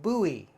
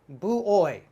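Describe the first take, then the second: First: The word is said in its usual form. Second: The word is sounded out from its spelling. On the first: The speaker calls it right. "We pronounce this buoy" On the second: The speaker calls it wrong. "I'm looking at my phonics. I'm going, uh, boo-oy. ... actually not correct"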